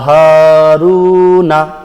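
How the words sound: The word ends with a final 'a' vowel. The reading continues without stopping. "এখানে আমরা থামি নাই"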